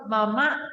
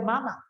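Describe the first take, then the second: First: "mamá" stressed on the last syllable; with accent. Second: "mamá" stressed on the first syllable, MA-ma; accent removed. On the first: Teacher showing the word with its accent, "mamá" stressed at the end. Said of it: "La palabra mamá con acento". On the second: Teacher showing the word without accent, "mamá" as MA-ma. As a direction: move the stress in "mamá" to the front. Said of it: "Y si le quito". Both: Shown as a demonstration.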